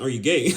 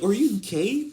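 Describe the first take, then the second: First: Plain question, louder lift at the end; straight question. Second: High, rising incredulous question; mocking disbelief. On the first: Retold or imitated. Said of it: "No, I'm asking a question". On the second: Imitating a man questioning another, high and incredulous. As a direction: ask it high, as a jokey accusation. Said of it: "just how the tone you say it".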